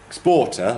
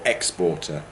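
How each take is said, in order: First: The stress is on the second syllable. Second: The stress is on the first syllable. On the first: "like that" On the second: "if we're thinking about contrasting it with an importer"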